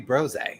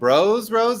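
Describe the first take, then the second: First: It is blended into one single word. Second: It is said as two separate words. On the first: The speaker calls it right. "feels like it should be Brose" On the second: The speaker calls it wrong. "he said it wrong"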